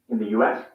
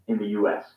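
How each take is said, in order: No difference in how they are said.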